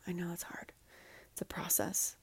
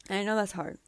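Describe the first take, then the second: First: Much softer, whispered reassurance; a tender whisper to someone who is hurting. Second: Said in the usual way. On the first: Real, not acted. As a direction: breathe "I know that's hard" gently as a whisper.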